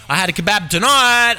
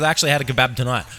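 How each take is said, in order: First: Higher, emphatic proclamation; excited announcement. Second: Said in the usual way. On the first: Real, not acted. Telling listeners why it's relatable, excited announcement. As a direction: announce it proudly, pitch lifted.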